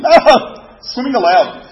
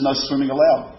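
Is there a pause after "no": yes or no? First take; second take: yes; no. First: It is said with a pause after no. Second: It is said with no pause after no.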